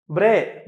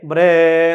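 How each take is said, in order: First: Said in the usual way. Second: "ബ്രേ" loud and long-drawn; imitated donkey bray. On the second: Shown as a demonstration. Teacher imitating a donkey's cry, loud drawn-out "ബ്രേ". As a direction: stretch the vowel of "ബ്രേ" loudly, like a donkey. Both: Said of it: "കഴുത കരയുന്നത്".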